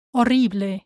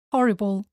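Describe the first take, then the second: First: Horrible as o-RREE-bleh; Spanish pronunciation. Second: Horrible as HOR-i-bul; English pronunciation. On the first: Teacher shows learners the Spanish word, o-RREE-bleh for Horrible. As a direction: silent H in Horrible, final E sounded. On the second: Teacher contrasts with Spanish, English HOR-i-bul for horrible. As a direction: stress the first syllable of horrible, ending -bul. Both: Shown as a demonstration. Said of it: "same in English and in Spanish".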